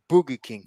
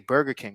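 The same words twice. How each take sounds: First: It is said with a Portuguese accent. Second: It is said with an English accent.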